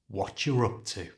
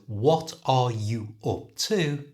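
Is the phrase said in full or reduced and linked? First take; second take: reduced; full. First: The words run together as watcha rup to. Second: Every word is said fully and separately.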